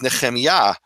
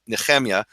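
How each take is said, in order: First: "Nehemiah" with stress on the final YAH; proper Hebrew pronunciation. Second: "Nehemiah" with the last syllable left unstressed; Eastern European pronunciation. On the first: Giving his name in undisputable form, proper Hebrew pronunciation. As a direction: say "Nehemiah" as ne-khem-YAH, guttural kh. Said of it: "The proper Hebrew, undisputable". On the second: Explaining how people call his name, Eastern European pronunciation. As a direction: say "Nehemiah" as ne-KHEM-ya, light ending. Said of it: "properly, people call me Nehemiah". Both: Shown as a demonstration.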